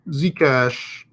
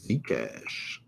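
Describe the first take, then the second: First: Said in the usual way. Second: Very soft, low murmur; half-said to himself, dropping away; muttered under breath. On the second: Real, not acted. Says ticker under breath first.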